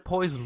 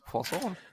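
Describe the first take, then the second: First: It is said with a plain English accent. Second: It is said with a French accent. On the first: "you just say poison" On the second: "with a French accent, and it goes poisson"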